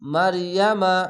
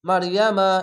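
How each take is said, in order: First: The word is said slowly. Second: The word is said quickly. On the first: "এভাবে পড়ছি আপনাদেরকে শিখাবার জন্য" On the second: "আমি দ্রুত পড়লে আপনারা বুঝতে পারবেন না, যেরকম"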